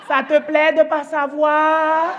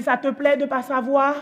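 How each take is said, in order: First: Loud, high, very drawn-out taunt; mock-gloating mother, louder and slow; vengeful taunt. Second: Slow, mildly mocking question; imitated child's cool provocation; son's taunt. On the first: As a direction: throw the question back, stretching every word. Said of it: "J'ai dit". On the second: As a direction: needle her slowly, without raising the voice. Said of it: "Il me dit".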